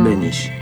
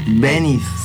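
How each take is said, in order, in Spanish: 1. El apellido se pronuncia con pronunciación polaca. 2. El apellido se pronuncia con pronunciación española. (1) "Supongo que es Benish, porque es polaco" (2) "Está castellanizado"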